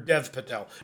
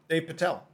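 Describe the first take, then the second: First: The first name has a short 'e' vowel. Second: The first name has a long 'ay' vowel. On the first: The speaker calls it right. "Or Dev Patel" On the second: The speaker calls it wrong. "Not Dave Patel"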